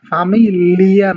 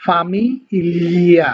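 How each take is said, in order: First: ফামিলিয়া with a plain hard Bengali ল; ফামিলিয়া said the wrong way, hard l. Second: ফামিলিয়া as Italian famiglia. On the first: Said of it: "ফামিলিয়া না কিন্তু". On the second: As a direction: draw out ফামিলিয়া with a liquid ly sound. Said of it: "যেমন হচ্ছে". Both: Shown as a demonstration.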